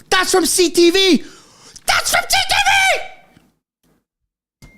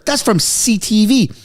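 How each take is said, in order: First: Each repeat climbs higher until it breaks into a shriek; rising disbelief. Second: Said in the usual way. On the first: Real, not acted. A streamer reading breaking news, rising to a shriek. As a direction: let the excitement run away with you.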